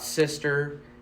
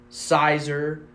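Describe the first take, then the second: First: It is said with a short 'i' and 'st'. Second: It is said with an 'eye' vowel first. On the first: "It's not Sister" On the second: "It's not Sizer"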